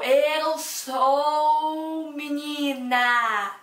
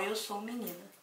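First: It is said slowly with exaggerated mouth movements. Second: It is said at a normal, natural pace.

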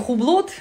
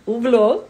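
First: The initial H and final T are both pronounced. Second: The initial H and final T are both silent. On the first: The speaker calls it wrong. "И H тоже не Хублот" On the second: The speaker calls it right. "Т на конце не говорится"

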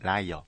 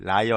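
First: The first syllable is light and plain. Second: The first syllable is heavy and exaggerated. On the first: The speaker calls it right. "라를 되게 담백하게 해주시면은 더 돼요" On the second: The speaker calls it wrong. "liar가 아니라"

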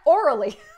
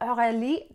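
First: The name sounds like the English word orally. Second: The name is said the French way. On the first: The speaker calls it wrong. "Americans pronounce it orally" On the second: The speaker calls it right. "no, it's Aurelie"

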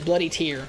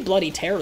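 First: 'Tear' rhymes with 'ear'. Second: 'Tear' rhymes with 'air'. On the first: The name refers to drops shed from the eyes. "as in like, you know, the tears made of blood" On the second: The name refers to ripping something apart. "because it tears the opponent and it makes the blood"

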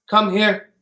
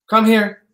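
Both takes have the same delivery.

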